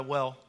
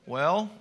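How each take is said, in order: First: Said in the usual way. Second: "Well" rising like a question; "Well" with a question mark at the end. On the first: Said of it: "at the end of the". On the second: Shown as a demonstration. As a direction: lift "Well" upward as an attentive listener. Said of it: "there's a question mark at the end".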